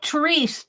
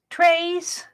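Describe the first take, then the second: First: The name is said like 'Therese'. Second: The name is said like 'Trace'. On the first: This is how the spelling reads to Americans. "It looks like Therese to us in the States" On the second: This is how the name's owner says it. "She says she pronounces it Trace"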